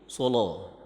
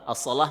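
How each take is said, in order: First: The l sound is heavy and thick. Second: The l sound is light and thin.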